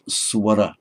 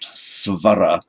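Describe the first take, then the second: First: The second consonant is a w sound. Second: The second consonant is a v sound. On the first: "tends to be pronounced as a w following certain consonants" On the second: "not svara"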